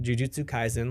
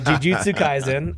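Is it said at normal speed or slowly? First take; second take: normal; slowly. First: It is said at normal conversational speed. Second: It is said noticeably slower and more carefully.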